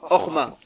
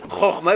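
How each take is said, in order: First: The word begins with a soft h sound. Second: The word begins with a throaty ch sound. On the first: The speaker calls it wrong. "ils vont dire orma" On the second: The speaker calls it right. "au lieu de dire chorma"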